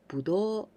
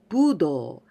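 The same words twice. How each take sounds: First: It is said with the grapes pitch pattern. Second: It is said with the martial arts pitch pattern. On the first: It means grapes. "if we say budo, it means grapes" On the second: It means martial arts. "Be careful with the intonation. Tun tun"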